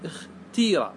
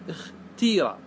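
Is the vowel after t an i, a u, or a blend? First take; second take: i; i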